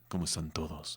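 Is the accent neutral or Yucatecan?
neutral. It is said in a neutral, softer Spanish accent. The speaker calls it right. "Debo decir"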